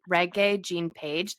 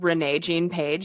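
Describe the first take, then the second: First: The first name has a g sound in the middle. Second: The first name has an n sound in the middle. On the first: The speaker calls it right. "That's how you actually say his name" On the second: The speaker calls it wrong. "Kirsten and I kept calling him"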